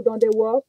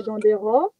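First: Dandewo with a W in place of the R. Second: Dandero with an open O, said slowly. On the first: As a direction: say Dandewo the Antillean way. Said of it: "Dandewo pour les Antillais". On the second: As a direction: say Dandero with a rolled R. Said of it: "on dit soit Dandero". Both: Shown as a demonstration.

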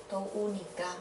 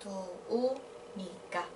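First: Said in the usual way. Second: Slow, softly spoken "Tô unica"; syllable by syllable. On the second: Shown as a demonstration. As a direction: draw out "Tô unica", pausing between syllables. Teacher repeats the form by syllable.

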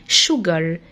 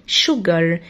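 The two takes are said the same way.

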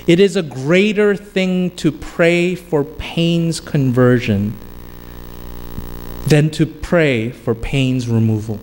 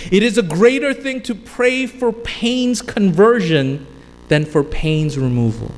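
First: Said in the usual way. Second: "It is a greater thing" lifted higher, then settling on "removal"; preacher repeating the quote for weight; restated with emphasis. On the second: Shown as a demonstration. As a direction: lean harder into "greater thing" the second time round. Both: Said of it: "I'm gonna say it again".

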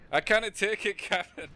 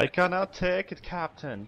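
First: High, loud attempt at a Scottish accent. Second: Unconvincing attempt at a Scottish accent; failed Scottish accent. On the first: Player shows the captain line to a teammate, Scottish accent. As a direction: do a hammed-up Scottish ship's engineer. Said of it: "Can you do a Scottish accent and say". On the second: Teammate repeats the captain line on request, poor Scottish accent. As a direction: try Scottish, barely getting there. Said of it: "There was no way that was a Scottish accent". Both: Shown as a demonstration.

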